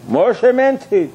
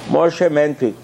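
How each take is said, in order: First: "meant" stressed, slow and higher; emphatic repeat. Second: Said in the usual way. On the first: Shown as a demonstration. Preacher insisting to his listeners, "meant" hammered slowly. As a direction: lean hard on "meant" the second time.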